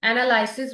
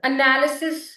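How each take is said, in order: First: एनालिसिस as "anəlaɪsɪs" with long ai; analysis other way. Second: एनालिसिस with short a, "ənalɪsɪs", rising; analysis said one way. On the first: (एनालिसिस का दूसरा उच्चारण) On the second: (एनालिसिस का पहला उच्चारण) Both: Shown as a demonstration. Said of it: "एनालिसिस भी बोलते हैं कुछ".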